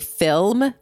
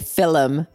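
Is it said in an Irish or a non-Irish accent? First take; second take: non-Irish; Irish. First: It is said in the speaker's usual accent. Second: It is said in an imitated Irish accent.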